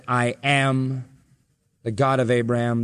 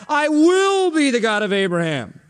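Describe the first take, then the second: First: Low, measured, pause after "am"; stress on AM. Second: High, exaggerated push on "will"; stress on WILL. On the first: Jesus quoting God's present tense, stress on "am". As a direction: land on "am" and let it hang. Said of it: "emphasis on the verb". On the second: Preacher rejecting the future tense, stress on "will". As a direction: stretch "will" as the wrong reading. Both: Shown as a demonstration.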